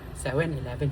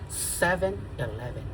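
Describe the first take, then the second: First: It is said with a heavy local accent. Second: It is said with a standard English pronunciation. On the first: The speaker calls it wrong. "hindi. Hindi ganun" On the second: The speaker calls it right. "Talagang seven eleven"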